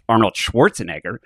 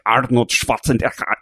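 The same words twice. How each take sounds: First: The name is said with an English accent. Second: The name is said with a German accent. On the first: The speaker calls it wrong. "his name isn't pronounced Arnold Schwarzenegger" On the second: The speaker calls it right. "he's from Austria ... It's like Arnold Schwarzenegger"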